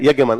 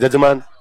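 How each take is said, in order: First: The word begins with a y sound. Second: The word begins with a j sound. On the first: This is the original form of the word. The speaker calls it right. "वो शब्द होता है यज्ञमान" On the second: This is how people locally say it. The speaker calls it wrong. "अपने कहते हैं जजमान"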